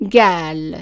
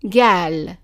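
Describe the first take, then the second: First: The word begins with a hard g sound. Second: The word begins with a hard g sound.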